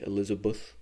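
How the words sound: The last syllable has an 'uh' vowel, like 'buth'. The speaker is South African. "you're talking to a South African when they say Elizabeth"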